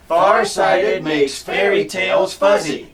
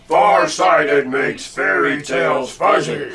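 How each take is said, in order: First: It is said in a normal voice. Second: It is said in a deep monster voice.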